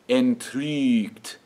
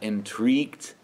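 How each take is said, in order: First: The stressed vowel is said with rounded lips. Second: The stressed vowel is said without rounded lips. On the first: The speaker calls it right. "that umlaut where we go ooh with our lips, and we say E through it" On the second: The speaker calls it wrong. "not entrügt"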